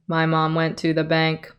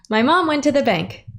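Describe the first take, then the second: First: It is read in a neutral, unsmiling voice. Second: It is read with an audible smile.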